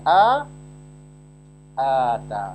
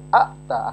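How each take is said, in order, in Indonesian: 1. Vokal pertama dipanjangkan. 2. Vokal pertama pendek. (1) "dipanjangkan jadi A Ata" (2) "Asalnya Ata"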